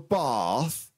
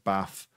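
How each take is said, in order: First: It is said in a southern English accent. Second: It is said in a northern English accent. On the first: "you go down south and it's like" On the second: "we say up here"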